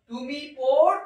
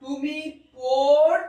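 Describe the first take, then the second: First: Said in the usual way. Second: তুমি পড় drawn out slowly and loudly, holding the bare ending of পড়; teacher slowly sounding out তুমি পড়; slow demo pronunciation. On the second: Shown as a demonstration. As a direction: stretch পড় so the missing vowel ending is heard. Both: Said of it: "এটা যদি তুমি হতো তাহলে কি হতো?".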